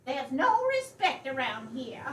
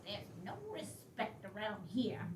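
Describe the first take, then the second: First: Louder, declared grievance; loud complaint. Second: Softer, lower grumbling aside; muttered grumble. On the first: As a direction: announce it to everyone. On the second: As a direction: mutter it under your breath. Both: Acted.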